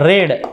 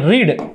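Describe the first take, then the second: First: The vowel is short, like 'red'. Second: The vowel is long, like 'reed'. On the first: It is the past-tense form. "दुसऱ्याचा रेड" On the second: It is the present-tense form. "पहिल्याचा उच्चार आहे रीड"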